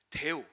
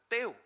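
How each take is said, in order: First: It begins with a soft, plain d sound. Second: It begins with a hard, tense t sound. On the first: This is the Korean reading of the name. "한글로는 지금 데오라고 되어 있지만" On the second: This is closer to the original Greek. "헬라어로는 떼오예요"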